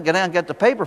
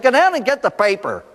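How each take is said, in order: First: Lightly voiced parental pleading; mild pleading. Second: Higher-pitched, insistent mother's command; exasperated order. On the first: Parents urging their son to fetch the paper, mildly pleading. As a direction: coax a reluctant child, with mild insistence. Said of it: "twenty minutes of their pleading with him". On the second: Retold or imitated. Mother finally ordering her son to fetch the paper, exasperated. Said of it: "finally the mother said".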